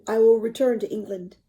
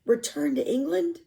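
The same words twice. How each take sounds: First: Said in the usual way. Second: Rising question, caught off guard; stunned echo. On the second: Acted. Boy hearing his captain will leave, stunned question. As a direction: echo it in disbelief.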